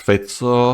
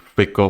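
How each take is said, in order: First: The name is said with its Slovak pronunciation. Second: The name is said with an English-style pronunciation. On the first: "in his country, they pronounce his surname as Fico" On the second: "I will still use the Fico pronunciation"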